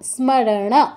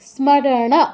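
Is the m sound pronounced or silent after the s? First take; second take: pronounced; pronounced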